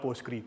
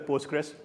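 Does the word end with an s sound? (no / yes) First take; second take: no; yes. First: The word ends without an s sound. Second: The word ends with an s sound. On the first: The speaker calls it wrong. "It's not Postgre, please" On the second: The speaker calls it right. "So it's either Postgres or it's PostgreSQL"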